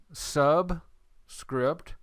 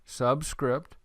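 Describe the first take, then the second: First: "subscript" broken by a pause after "sub"; word split in parts. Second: Said in the usual way. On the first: Shown as a demonstration. Teacher explains the term to students, "subscript" split in two. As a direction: say "subscript" as two separate pieces, sub, then script.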